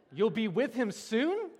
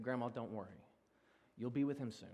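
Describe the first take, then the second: First: High, slow, incredulous question; mock disbelief. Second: Soft, low words of comfort; gentle reassurance. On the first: Pastor mocking what he told his grandma, loudly incredulous. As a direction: replay the blunder as an appalled question. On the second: Retold or imitated. Pastor consoling his grieving grandma at the funeral home, softly reassuring. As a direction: console softly, keeping it hushed.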